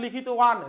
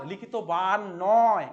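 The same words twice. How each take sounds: First: লিখিতবান with a gliding w sound for the ব, no lip closure; correct pronunciation. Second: লিখিতবান said slowly with a hard lip-closed b, likhitoban, marked as wrong; wrong pronunciation demo. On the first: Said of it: "লিখিতবান উচ্চারণ হয়, কিন্তু". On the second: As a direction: slowly show the wrong লিখিতবান, lips pressed for the ব sound. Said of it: "ঠোঁট লাগিয়ে উচ্চারণ করা যাবে না". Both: Shown as a demonstration.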